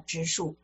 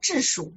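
First: Taiwan style: first syllable has a rising tone. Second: Mainland style: first syllable has a falling tone.

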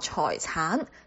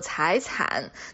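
First: The word is said with Cantonese pronunciation. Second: The word is said with Mandarin pronunciation.

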